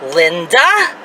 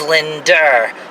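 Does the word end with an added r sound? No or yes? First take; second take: no; yes. First: It ends in a plain vowel, no r sound. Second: It ends with an added r sound.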